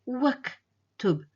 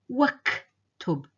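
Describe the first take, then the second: No difference in how they are said.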